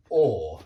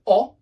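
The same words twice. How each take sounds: First: "or" as a drawn-out British aw, no r; long or vowel. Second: "o" as a brief rounded vowel, as in hot; short o. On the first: Teacher contrasts British vowels, "or" held as long aw. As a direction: hold "or" long and rounded. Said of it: "It's a longer sound". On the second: Teacher shows the wrong vowel, short "o" as in hot. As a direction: cut "o" short, higher and louder. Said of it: "it's not an o". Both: Shown as a demonstration.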